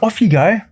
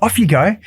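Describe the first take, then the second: First: Higher, lightly voiced wife; imitating wife. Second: Higher, lightly voiced wife nudging; imitating wife. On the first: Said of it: "And Mel's like". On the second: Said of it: "she's like". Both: Retelling his wife urging him to run, higher nudge.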